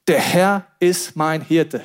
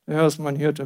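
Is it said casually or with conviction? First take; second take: with conviction; casually. First: It is said with strong conviction. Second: It is said casually, without conviction.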